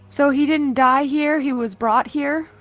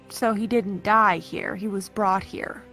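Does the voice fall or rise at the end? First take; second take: rise; fall. First: The voice rises at the end like a question. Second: The voice falls at the end like a statement.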